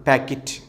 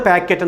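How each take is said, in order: First: പാക്കറ്റ് ending in a short "kit"; correct pronunciation. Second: പാക്കറ്റ് with a full "ket"; common mispronunciation. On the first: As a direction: say പാക്കറ്റ് as "PAK-it". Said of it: "കൃത്യമായ ഉച്ചാരണം". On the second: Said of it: "നമ്മൾ". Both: Shown as a demonstration.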